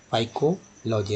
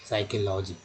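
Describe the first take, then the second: First: Psychology drawn out as 'phaikology'; psychology wrongly starting with F. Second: Psychology starting on S; silent P in psychology. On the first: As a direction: slowly put an F sound on psychology. (psychology के शुरू में गलत फ) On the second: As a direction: say psychology as 'saikology'. (psychology में P silent) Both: Shown as a demonstration. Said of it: "ना कि".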